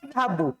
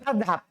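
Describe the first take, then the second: First: The word ends with a short final vowel. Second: The word ends on a bare consonant. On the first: "Pakaikan saya. Saya pergi" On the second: "Wakaf coba"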